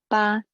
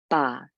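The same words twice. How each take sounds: First: The syllable has a high level tone. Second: The syllable has a very low falling tone. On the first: "high tone ba" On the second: "it is your low falling, the lowest ba"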